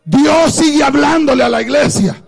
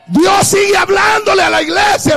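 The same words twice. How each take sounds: First: Said in the usual way. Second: Emphatic repeat. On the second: Shown as a demonstration. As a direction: hammer the line home the second time.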